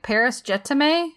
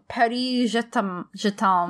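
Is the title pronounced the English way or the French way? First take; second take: English; French. First: The title is pronounced the English way. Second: The title is pronounced the French way. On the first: The speaker calls it wrong. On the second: The speaker calls it right.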